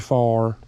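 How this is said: It is said in a country accent.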